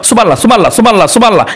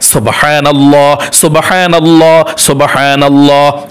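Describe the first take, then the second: First: The word is pronounced hastily and sloppily. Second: The word is pronounced carefully and precisely. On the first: The speaker calls it wrong. "এরকম বলবেন না" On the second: The speaker calls it right. "সহিশুদ্ধভাবে উচ্চারণ সঠিক রেখে"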